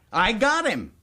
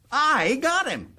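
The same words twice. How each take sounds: First: Higher, pleased announcement; proud boast. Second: Slow, high, drawn-out gloat; savoring triumph. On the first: Governor boasting to the boys of his prisoner, proud. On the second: Governor repeating his boast to the boys, slow drawn-out gloat. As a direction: stretch it out and savour the win. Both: Acted.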